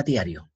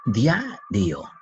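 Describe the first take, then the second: First: Said in the usual way. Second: "Diario" in two firm beats, dia, rio; "Diario" chanted slowly as dia - rio; syllable separation. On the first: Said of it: "¿Cómo será diario?". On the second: Shown as a demonstration. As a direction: split "Diario" with a gap after dia. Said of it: "Eso se llama separación".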